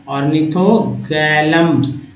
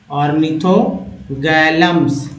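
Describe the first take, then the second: No difference in how they are said.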